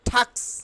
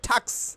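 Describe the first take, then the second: The two takes are said the same way.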